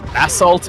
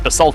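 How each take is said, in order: First: It is pronounced the British English way. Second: It is pronounced the American English way. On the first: "in uh, British English" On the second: "in American English"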